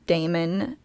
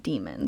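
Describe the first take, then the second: First: The first vowel sounds like 'day'. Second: The first vowel sounds like 'dee'. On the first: This is the older Greek-based form. "started pronouncing A as in daemon" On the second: This is the later English form. "started pronouncing it E as in demon"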